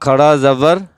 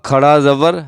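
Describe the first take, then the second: Both takes have the same delivery.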